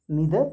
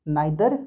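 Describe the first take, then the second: First: Neither said "nee-ther" with a long ee; American pronunciation. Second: Neither said "nye-ther" with an eye sound; British pronunciation. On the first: Teacher shows students the American neither, "nee-ther". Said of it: "neither का मतलब American हो जाएगा". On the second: Teacher shows students the British neither, "nye-ther". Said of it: "neither का मतलब British हो जाएगा". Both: Shown as a demonstration.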